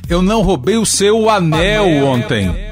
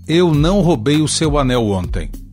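First: The stress falls on the word anel. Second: No word is given special stress. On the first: "Posso ainda enfatizar o suposto elemento roubado" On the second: "a frase sem ênfase"

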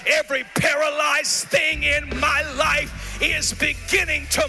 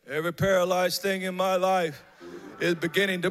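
First: It is said loudly and forcefully, with full energy. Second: It is said quietly and weakly, without force. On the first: The speaker is boldly declaring it. The speaker calls it right. "Open your mouth wide. Make a mighty decree" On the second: The speaker is not really declaring it. The speaker calls it wrong. "you said that like this"

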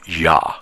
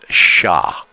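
First: The consonant sounds like an English 'y'. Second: The consonant sounds like an English 'sh'. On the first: This is how most Spanish speakers say it. "in the double L in Spanish is pronounced ya, like Y-A" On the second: This is how people from Buenos Aires say it. "the people in Buenos Aires pronounce it sha, with a S-H-A"

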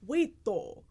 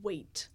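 First: The word ends with an added extra vowel. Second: The word ends cleanly on the final consonant. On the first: "There's always an extra syllable at the end" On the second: "it's never, like, a clear ending to a word. So you don't do"

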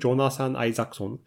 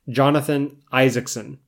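First: The name has a Japanese pronunciation. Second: The name has an English pronunciation. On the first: "Not really that close to my actual name" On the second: "my name is a very hard name for Japanese speakers to say correctly"

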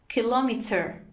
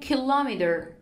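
First: It is said in a British accent. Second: It is said in an American accent.

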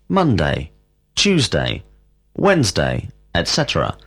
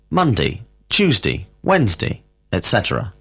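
First: It is said slowly and carefully. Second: It is said quickly and reduced.

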